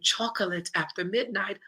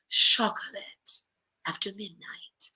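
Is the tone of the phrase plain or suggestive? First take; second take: plain; suggestive. First: It is said in a plain, pleasant tone. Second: It is said in a suggestive, seductive tone. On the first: It simply sounds like a nice treat. "that sounds delightful" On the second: It hints at something romantic. "it could lead to something else because of the tone"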